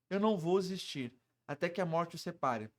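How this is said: It is said in a dark, threatening tone. The speaker intends to kill someone. "O cara quer te matar"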